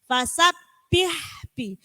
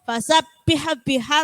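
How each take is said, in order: First: The h sound ends cleanly without a vowel. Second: The h sound has an added vowel after it. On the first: The speaker calls it right. "harus sempurnakan hak sukunnya" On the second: The speaker calls it wrong. "kadang kan gitu ... haknya ada e-nya, ada tambahnya"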